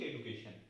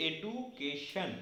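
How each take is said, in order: First: Said in the usual way. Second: education slowly broken into separate syllables, এ-ডু-কে-শন. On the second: Shown as a demonstration. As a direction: break education up, drawing out each syllable. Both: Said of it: "ভেঙে ভেঙে বলছি".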